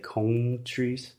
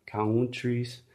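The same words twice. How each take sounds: First: Countries with vowels split apart; imitating wrong countries. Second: Countries with one schwa vowel; correct countries. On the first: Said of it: "he is separating the vowel sounds". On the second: Shown as a demonstration. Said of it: "should simply be one vowel sound".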